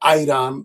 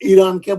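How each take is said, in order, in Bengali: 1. প্রথম স্বরধ্বনিটি 'eye' এর মতো শোনায়। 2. প্রথম স্বরধ্বনিটি 'ee' এর মতো শোনায়। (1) "ইরানকে বলে আইরান" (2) "তারা ইরান উচ্চারণ করতে পারে না"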